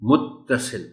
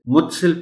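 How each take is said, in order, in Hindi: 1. 't' की आवाज़ रोकी जाती है और दोहरी है। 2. 't' की आवाज़ छोटी और एक है।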